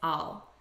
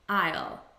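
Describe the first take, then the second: First: The word is said quickly, unstressed and reduced. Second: The word is said fully and clearly, stressed.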